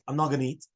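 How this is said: It is said as a statement, falling.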